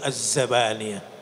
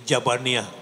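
First: The word begins with a z sound. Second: The word begins with a j sound. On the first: This is the original form of the name. The speaker calls it right. "Sebetulnya betul adalah Zabaniyah" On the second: This is how Betawi speakers say it. The speaker calls it wrong. "Dari Jabaniyah"

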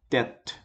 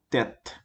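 Both takes have the same delivery.

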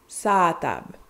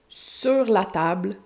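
First: Contracted to two words with a longer a. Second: All three words are said in full.

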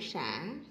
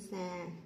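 First: The syllable has a dipping then rising tone. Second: The syllable has a low falling tone. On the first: "hội" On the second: "huyền"

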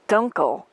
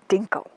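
First: The first vowel sounds like the 'u' in 'dunk'. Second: The first vowel sounds like the 'i' in 'dink'. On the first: The speaker calls it right. "the correct pronunciation is Dunkle" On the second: The speaker calls it wrong. "and not Dinkle"

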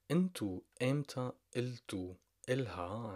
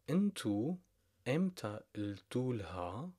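First: The words are said separately with the vowel kept. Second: The words run together with the vowel dropped.

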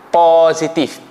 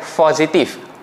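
First: The first syllable is said clearly as 'po'. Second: The first syllable is not said with 'po'. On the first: The speaker calls it right. "dia start dengan P-O" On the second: The speaker calls it wrong. "Bukan positif"

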